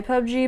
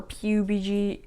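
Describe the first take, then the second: First: "pub G" said as one word, pub, then the letter G. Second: "P U B G" spelled letter by letter. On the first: Unsure gamer naming a game, "pub G" said as a word. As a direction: say "pub G" like pub plus gee. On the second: Unsure gamer correcting himself, "P U B G" spelled out. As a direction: say "P U B G" as four separate letter names. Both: Real, not acted. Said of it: "I don't know how I pronounce that".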